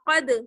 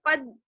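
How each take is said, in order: First: The final d is released with an echo. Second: The final d is cut off abruptly. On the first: The speaker calls it right. "बल्कि आवाज लौट कर आएगी" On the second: The speaker calls it wrong. "आवाज बंद नहीं होगी, कद इस तरह से नहीं"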